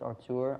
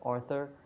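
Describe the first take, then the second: First: The middle consonant is a plain 't' sound. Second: The middle consonant is a 'th' sound. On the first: The speaker calls it right. "It's Artur" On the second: The speaker calls it wrong. "I've been saying this wrong. Every time I mention it in my videos, I always said Arthur"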